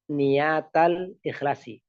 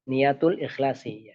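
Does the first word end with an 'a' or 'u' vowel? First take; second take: a; u. First: The first word ends with an a vowel. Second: The first word ends with a u vowel. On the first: The phrase restates the word before it. "Niyata ini kan mansub ya" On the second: The phrase starts a new clause as its subject. "bisa juga dibaca marfu ya"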